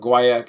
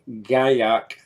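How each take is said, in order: First: It is pronounced the North American way. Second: It is pronounced the French way. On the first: "the traditional North American correct pronunciation" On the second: "the French pronunciation"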